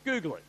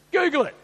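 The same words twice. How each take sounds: First: Said in the usual way. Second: High, loud punchline; emphatic shout. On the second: Acted. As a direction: belt it out for emphasis. Repeats the catchphrase at a shout.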